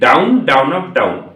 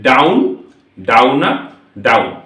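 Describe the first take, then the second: First: The words are spoken quickly, run close together. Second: The words are spoken slowly with gaps between them. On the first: "এবার এটাকে একটু স্পিডে যদি বলি" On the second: "আমি কি বলছিলাম এতক্ষণ ধরে?"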